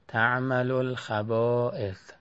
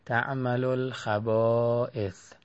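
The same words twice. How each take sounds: The two takes are said the same way.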